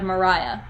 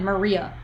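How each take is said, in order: First: The middle syllable sounds like 'rye'. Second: The middle syllable sounds like 'ree'. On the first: This is the name's proper pronunciation. The speaker calls it right. "I knew how to pronounce it" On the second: This is how most people say the name. The speaker calls it wrong. "everyone said Maria instead of Mariah"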